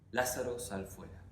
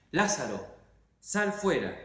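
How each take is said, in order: First: Said in the usual way. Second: Called out loud, pitch up high. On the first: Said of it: "gritaba frente a la tumba". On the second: Acted. Jesus calls Lazarus out of the tomb, loud cry. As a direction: command the dead man out of the tomb. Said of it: "gritó con todas tus fuerzas".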